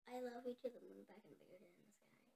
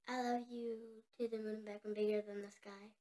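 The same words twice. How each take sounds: First: It is said quietly. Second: It is said loudly.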